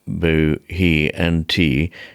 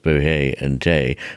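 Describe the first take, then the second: First: The words have their present-day pronunciation. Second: The words have an older, historical pronunciation.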